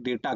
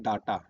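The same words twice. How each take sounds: First: डेटा with "ay" in first syllable; English pronunciation. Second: डाटा with long "aa" in first syllable; Hindi-spelling pronunciation. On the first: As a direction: say डेटा as DAY-ta. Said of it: "इसको कहते हैं डेटा". (डेटा में पहला स्वर "ए") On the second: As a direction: say डाटा as DAA-taa. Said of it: "Hindi में लिखते क्या है". (डाटा में पहला स्वर "आ") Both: Shown as a demonstration.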